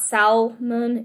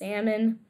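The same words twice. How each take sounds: First: The L sound is pronounced in the word. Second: The L sound is silent in the word. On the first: The speaker calls it wrong. "It's not salmon" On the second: The speaker calls it right. "There's a silent L there"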